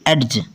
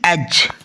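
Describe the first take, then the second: First: A separate d sound is heard before the j. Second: No separate d sound is heard before the j. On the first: The speaker calls it wrong. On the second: The speaker calls it right.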